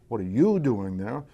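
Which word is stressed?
you. The stress falls on the word you. The question is about the person. "It's about the person"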